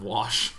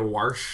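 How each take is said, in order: First: The word is said without any r sound. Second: The word is said with an added r sound. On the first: This is the standard way to say it. "instead of wash" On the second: This is the regional way to say it. "wash instead of"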